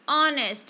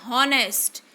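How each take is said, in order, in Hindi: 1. इस शब्द की शुरुआत स्वर ध्वनि से होती है। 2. इस शब्द की शुरुआत H ध्वनि से होती है। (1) "It is honest. It means H is silent" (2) "We are not pronouncing honest"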